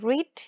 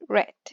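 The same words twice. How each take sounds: First: It is said with the base-form vowel. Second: It is said with the past-form vowel. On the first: The action happens in the present. "verbs like read" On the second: The action happened in the past. "in the past, it's the same, but the pronunciation is different"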